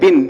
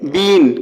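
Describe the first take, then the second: First: The vowel is short and clipped. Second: The vowel is long and stretched out. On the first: The speaker calls it right. "इसको बिन बोला जाता है" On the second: The speaker calls it wrong. "अक्सर लोग इसको बीन पढ़ते हैं, बीन खींच करके"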